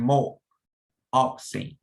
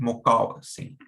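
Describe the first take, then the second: First: It is broken into parts with small pauses. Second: It is said smoothly as one unbroken word. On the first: The speaker calls it wrong. "you're not saying" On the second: The speaker calls it right. "it's all one word"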